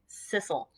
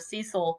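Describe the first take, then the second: First: The name is said with a British pronunciation. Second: The name is said with an American pronunciation. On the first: The speaker calls it right. "their British pronunciation that is appropriate" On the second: The speaker calls it wrong. "the American pronunciation of Cecil or Cecil would be both of them incorrect"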